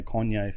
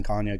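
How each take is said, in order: First: "[name]" with a rounded o, Kon-yay; first syllable of "[name]" like "con"; Kon-yay pronunciation. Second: "[name]" with a long ah, Carn-yay; first syllable of "[name]" like "barn"; Carn-yay pronunciation. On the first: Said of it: "Justine just corrected us". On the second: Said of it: "It doesn't seem right to me". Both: Shown as a demonstration.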